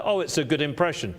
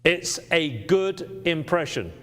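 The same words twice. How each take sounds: First: Quick, offhand throwaway, lightly mocked; a hint of a breezy salesman shrugging it off; mock casual. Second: "good impression" said deliberately, weight on "good"; proper term. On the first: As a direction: toss it off like a careless compliment. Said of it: "us using nice adjectives". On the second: Shown as a demonstration. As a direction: state "good" firmly as the official grade. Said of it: "The proper classification for this Rembrandt is".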